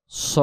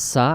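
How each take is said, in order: First: "স" with a thick s, rounded towards o; heavy sad. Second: "সা" with a thin s and open a; light sin. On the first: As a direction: make "স" a full emphatic sad. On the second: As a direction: keep "সা" light, plain s. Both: Shown as a demonstration. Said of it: "সিন এবং সদ অক্ষরের".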